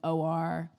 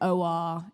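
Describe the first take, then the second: First: It is said with an American accent. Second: It is said with a British accent.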